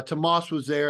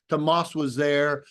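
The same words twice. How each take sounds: First: Said in the usual way. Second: Tomas said slowly and deliberately, each syllable drawn out; careful pronunciation. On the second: Shown as a demonstration. Recalling first meeting Tomas, slow careful pronunciation of Tomas. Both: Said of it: "so I had to say it like that".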